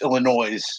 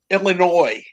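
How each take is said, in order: First: The final s is sounded. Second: The final s is silent. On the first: The speaker calls it wrong. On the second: The speaker calls it right. "correct pronunciation"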